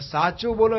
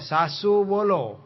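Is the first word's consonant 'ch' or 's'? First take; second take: ch; s. First: It is said with a clear 'ch' sound. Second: It is said with 's' in Kathiyawadi style.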